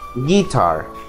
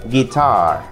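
First: The stress is on the first syllable. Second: The stress is on the second syllable. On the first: The speaker calls it wrong. "No vaya a decir guitar, porque si usted dice guitar, suena algo raro" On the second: The speaker calls it right. "La pronunciación correcta es guitar"

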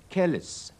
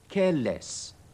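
First: The final syllable has a reduced vowel. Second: The final syllable has a full vowel. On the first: The speaker calls it right. "咁先至叫啱" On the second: The speaker calls it wrong. "將個less test 讀翻個原本音出嚟係錯"

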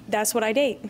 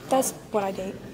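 First: It is said louder. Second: It is said at a normal, softer volume.

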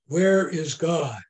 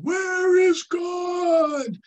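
First: It is said at a normal volume. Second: It is said in a big booming voice.

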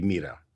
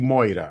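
First: It is said with the modern Greek pronunciation. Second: It is said with the Erasmian pronunciation. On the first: "αντί για να πει μοίρα" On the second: "Είναι αυτό που λέει Μόηρα"

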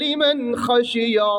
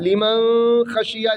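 First: The n sound is pronounced clearly before kh. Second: The n sound is hidden into the kh. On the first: The speaker calls it right. "ഇദ്ഹാറിൻ്റെ അക്ഷരമായ ഖ വന്നു എന്നതുകൊണ്ട്" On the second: The speaker calls it wrong. "ലിമൻ ഖശിയ എന്നുച്ചരിക്കാൻ പാടില്ല"

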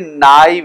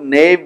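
First: The word starts with 'nigh', then 'eev'. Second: The word sounds like 'nave', one syllable. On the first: The speaker calls it right. "Ye knife hai" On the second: The speaker calls it wrong. "Isko bahut se log knave bula dete hain"

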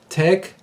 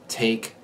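First: The vowel is reduced to a short E. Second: The vowel is a clear long A. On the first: "the speaker of Arabic reduces this vowel to a short E" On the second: "The speaker of standard American English produces a clear long A"

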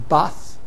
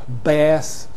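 First: It is said in a northern English accent. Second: It is said in an American accent. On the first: "In the northern England, you've got more of an Icelandic-type vowel everywhere" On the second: "In America, you've got an a vowel, which is often longer in American"

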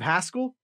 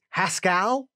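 First: The name does not rhyme with Pascal. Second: The name is said to rhyme with Pascal. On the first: The speaker calls it right. "instead of Haskell" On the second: The speaker calls it wrong. "like it rhymes with Pascal"

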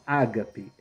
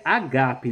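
First: The stress is on the first syllable. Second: The stress is on the second syllable. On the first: The speaker calls it wrong. "não ágape" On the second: The speaker calls it right. "A leitura correta é agape, o acento está na segunda sílaba"

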